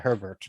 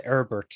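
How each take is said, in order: First: Said in the usual way. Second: Herbert said 'Erbert', H dropped; Herbert with silent H. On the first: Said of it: "instead of Herbert". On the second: Shown as a demonstration. Host musing on guest's name, Herbert without its H. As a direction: drop the H at the start of Herbert. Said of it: "They don't say Herbert".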